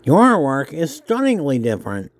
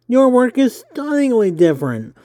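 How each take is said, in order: First: Said in the usual way. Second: High nerdy interviewer voice. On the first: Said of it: "my nerdy voice". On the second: Acted. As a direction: pitch it up, eager and nerdy. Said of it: "I hope my nerdy voice isn't too nerdy".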